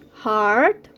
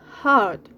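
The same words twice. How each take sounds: First: The R sound is clearly pronounced. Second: The R sound is dropped entirely.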